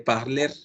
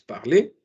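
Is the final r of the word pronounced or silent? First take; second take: pronounced; silent. First: The final r is clearly pronounced. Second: The final r is silent. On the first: The speaker calls it wrong. "jamás el verbo parler se lee parler" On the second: The speaker calls it right. "la terminación er, pues no suena"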